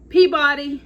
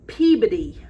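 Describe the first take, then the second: First: It is said in an outsider's accent. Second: It is said in the local accent. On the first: "I would say that is Peabody" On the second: "I was told that is Peabody"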